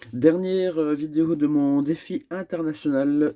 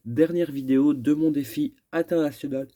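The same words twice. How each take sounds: First: Said in the usual way. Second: Yawning through the words; words stretched by a yawn. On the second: Real, not acted. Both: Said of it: "je baille un petit peu".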